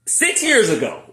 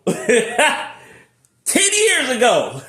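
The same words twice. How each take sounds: First: Said in the usual way. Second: Slow, high, laughing drawl; laughing correction. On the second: Real, not acted.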